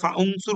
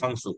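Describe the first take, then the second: First: The initial vowel is pronounced separately. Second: The initial vowel is dropped and joined. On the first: The speaker calls it wrong. "এটা কি আমরা ফা উনসুর বলতে পারবো? ... না" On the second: The speaker calls it right. "এটা উচ্চারণ হবে না, এটা উই ফাংসুর হবে"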